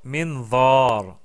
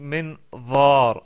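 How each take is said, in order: No difference in how they are said.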